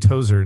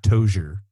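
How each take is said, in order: First: The middle consonant is a plain z sound. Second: The middle consonant is an sh-like sound. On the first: The speaker calls it right. "Thank you for saying Tozer" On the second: The speaker calls it wrong. "not Tozer"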